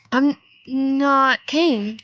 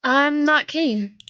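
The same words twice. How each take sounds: First: Insist, slower and firmer; a bit louder. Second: Said in the usual way. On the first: Acted. To the stranger on the phone, slower and a bit louder. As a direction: repeat it slowly, a little louder. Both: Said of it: "I said a bit louder".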